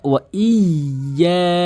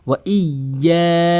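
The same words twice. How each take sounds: First: The 'y' sound is held and doubled. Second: The 'y' sound is held and doubled.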